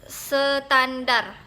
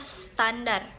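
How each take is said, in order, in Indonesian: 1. Ada bunyi tambahan pada kata itu. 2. Tidak ada bunyi tambahan pada kata itu. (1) "penambahan bunyi huruf ... contoh katanya"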